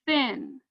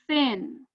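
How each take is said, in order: Both takes have the same delivery.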